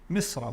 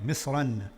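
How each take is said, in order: First: The word ends on a vowel, no n. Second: The word ends with an n sound. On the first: It means Egypt. "without the tanween" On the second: It means any countryside. "With a tanween on it, you can hear the noon at the end"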